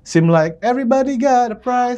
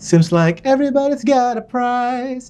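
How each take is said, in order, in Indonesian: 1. Bunyi S di akhir kata dihilangkan. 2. Bunyi S di akhir kata jelas diucapkan. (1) "banyak teman-teman yang suka ketinggalan" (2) "kan seems ada S. Ini everybody's ada S"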